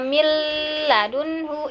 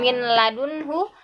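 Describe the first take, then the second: First: The n merges into a long, nasal l. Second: The n is pronounced clearly before the l. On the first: "bukan juga milladunhu, itu salah ya" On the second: "bukan min ladunhu"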